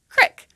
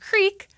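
First: The vowel is a short i sound. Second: The vowel is a long ee sound. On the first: "some people in Appalachia pronounce this word as crick, with an is sound, as in the word tip" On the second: "the long E sound, as in creek"

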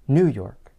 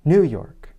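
First: The stress falls on the word New. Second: The same.

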